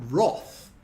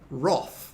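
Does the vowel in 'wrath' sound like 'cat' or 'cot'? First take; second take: cot; cot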